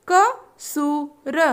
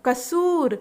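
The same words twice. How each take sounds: First: कसूर stretched very slowly; slow drawn-out word. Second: Said in the usual way. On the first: Shown as a demonstration. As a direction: draw out कसूर syllable by syllable. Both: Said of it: "तीन वर्ण वाले शब्द".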